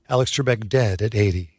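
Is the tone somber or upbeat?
somber. The tone is somber and respectful. The speaker calls it right. "Like that"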